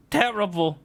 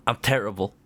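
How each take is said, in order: First: High-pitched squeak on Terrible; high squeaky echo. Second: Said in the usual way. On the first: Shown as a demonstration.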